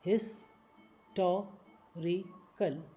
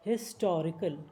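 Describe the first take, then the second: First: historical stretched very slowly; slow syllable by syllable. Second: Said in the usual way. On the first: Shown as a demonstration. Teacher slowing historical down for learners. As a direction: break historical into slow parts.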